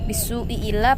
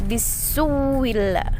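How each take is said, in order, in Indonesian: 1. Hamzah memisahkan kedua vokal. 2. Bunyi w ganda menyambung kedua vokal. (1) "bukan bisu'i illa lagi" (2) "Mengganti hamzah yang pertama dengan waw, kemudian diidghamkan"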